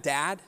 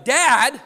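First: Said in the usual way. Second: Loud, high, exasperated "Dad!"; a fed-up child calling out "Dad!"; frustrated kid yell. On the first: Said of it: "do you hear what's in that". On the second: Retold or imitated. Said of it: "do you hear what's in that "dad".

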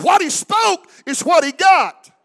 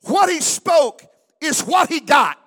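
First: Higher and louder, shouted at full force; louder preaching shout. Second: Preaching shout. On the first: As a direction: raise it to a ringing shout. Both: Real, not acted. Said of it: "I said".

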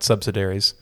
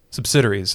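First: "subsidiaries" said SUB-suh-dair-eez, stress on the first syllable and on dair; wrong stress. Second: "Subsidiaries" said suh-BSID-ee-rees, stress on the second syllable; corrected stress. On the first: Host showing his earlier mistake, stress on the first syllable of "subsidiaries". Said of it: "I emphasized the wrong syllable". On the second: Host correcting his own stress for the listeners, stress on the second syllable of "Subsidiaries". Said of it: "I guess is how you say it". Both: Shown as a demonstration.

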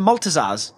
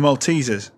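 First: "Maltesers" misread as MOLT-uh-zarz; mispronunciation. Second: "Maltesers" said mol-TEE-zers; correct pronunciation. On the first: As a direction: say "Maltesers" with a short middle and an -arz ending. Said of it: "oh, you mean the Maltesers". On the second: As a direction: correct him with a long stressed TEE in "Maltesers". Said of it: "never heard them called that". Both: Acted.

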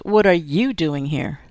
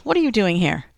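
First: Slower, with weight on "you"; stress on "you". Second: Said in the usual way. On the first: A narrator's reading. Cop throws the question back at his colleague, stressing "you".

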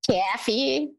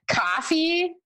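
First: Hoosier accent on "Coffee", vowel fronted to "caffee"; Hoosier-accented "Coffee" with the a of "cat". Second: Said in the usual way. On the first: Shown as a demonstration. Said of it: "there was an accent there". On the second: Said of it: "You said it like coffee".

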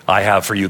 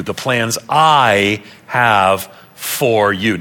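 First: Said in the usual way. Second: "I", "have", "for" each drawn out slowly; word-by-word emphasis. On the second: Shown as a demonstration. Preacher stressing who speaks to whom, slow emphatic "I have for you". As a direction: lean long on "I", then separate "have for you".

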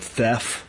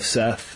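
First: Seth said with a lisp, "Theth". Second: Said in the usual way. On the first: Shown as a demonstration. Host explains his comic's title, lisped "Theth". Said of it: "it's called Theth instead of Seth". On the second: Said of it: "instead of Seth".

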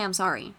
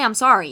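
First: Said in the usual way. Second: Emphatic mock apology. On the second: Viewer told what Ken never said: loud pointed mock apology. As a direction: hit I'm sorry hard, loud and pointed.

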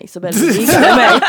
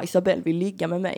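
First: Gleeful boast. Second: Said in the usual way. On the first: Retold or imitated. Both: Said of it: "han kom hem skitglad och bara".

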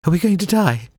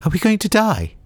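First: Very high, shrill panicky cry. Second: Very high, shrill panicky repeat. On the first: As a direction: squeal it out high and scared. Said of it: "in a shrill voice said". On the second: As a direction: squeal it again, high and scared. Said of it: "the shrill voice repeated". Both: A narrator's reading.

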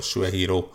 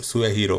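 First: "Suehiro" starting with a sh sound; alternative pronunciation. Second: "Suehiro" with an s sound at the start; first pronunciation. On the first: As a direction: begin "Suehiro" with sh, as in shoe. („Suehiro” s hanggal, mint a magyar só) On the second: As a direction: begin "Suehiro" with a plain s, as in sun. („Suehiro” sz hanggal az elején) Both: Shown as a demonstration. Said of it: "vagy Suehiro".

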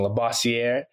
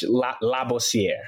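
First: Labossiere said the English way, la-BOSS-ee-air; anglicised Labossiere with an American r; English pronunciation. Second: Labossiere said the French way, open la, lah-bo-see-air; French pronunciation. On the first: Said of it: "that's the English pronunciation". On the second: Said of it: "But, but French". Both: Shown as a demonstration.

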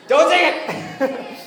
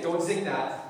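First: High, loud, drawn-out yell; playful shouted protest. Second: Said in the usual way. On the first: Real, not acted. Speaker scolding the crowd over a joke, shouted. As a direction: shout it out, breaking into a laugh.

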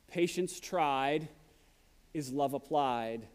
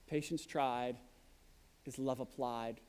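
First: "Patience" drawn out slowly, "love" leaned on; slow quoted saying. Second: Much softer, lower echo of "Patience tried is love applied"; soft repeat. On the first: Preacher quoting a proverb to the church, slow and weighty. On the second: Preacher repeating the proverb to the church, hushed and low. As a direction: let the proverb sink in, almost to yourself. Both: Shown as a demonstration. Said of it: "It's been said".

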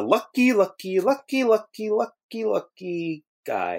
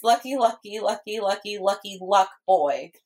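First: Drawn-out "lucky", climbing high then sinking; misquoted cartoon line. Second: Put-on quick, even run of "lucky" ending on "boy"; corrective quote. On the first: Quoting SpongeBob's lucky line, slow high singsong. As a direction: stretch each "lucky" slowly, higher in the middle. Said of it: "No, it's lucky". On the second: Shown as a demonstration. Friend corrects the misquote, brisk even run. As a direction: rattle "lucky" off evenly, in a near-usual voice. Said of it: "Get it right".

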